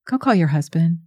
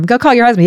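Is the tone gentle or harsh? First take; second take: gentle; harsh. First: It is said in a gentle, caring tone. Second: It is said in a harsh, accusing tone. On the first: The speaker is meeting her in her pain with compassion. "What if his tone is" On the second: The speaker is exposing and judging her. "that is very different. From"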